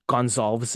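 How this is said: The name is said with a Portuguese pronunciation. "It's Gonçalves in Portuguese"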